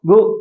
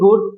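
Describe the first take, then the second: First: The final d sound is held back, unreleased. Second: The final d sound is clearly released. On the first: This is how Americans say it. "আমেরিকানরা বলে গু" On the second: This is how it is said locally. "আমাদের দেশে আমরা বলি গুড"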